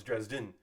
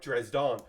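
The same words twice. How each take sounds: First: Dresden ending in a short "din"; Dresden closed off with a light "din", not "don"; correct pronunciation. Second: Dresden ending in an open "don"; Dresden with a broad "dahn" second syllable; spelling pronunciation. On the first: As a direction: say Dresden with the second syllable rhyming with "in". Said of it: "but it is not". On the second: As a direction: say Dresden as if written with "dawn" at the end. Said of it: "whose name is spelled like". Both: Shown as a demonstration.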